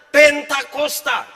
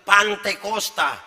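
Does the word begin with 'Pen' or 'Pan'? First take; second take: Pen; Pan. First: The word begins with 'Pen' and has 'ta' second. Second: The word begins with 'Pan' and has 'te' second. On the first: The speaker calls it right. "itu yang benar" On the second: The speaker calls it wrong. "Itu salah"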